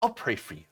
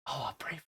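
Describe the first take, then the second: First: Passive-aggressive pious. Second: Breathy mock pious. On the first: Retold or imitated. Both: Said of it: "That's the gigantic middle finger".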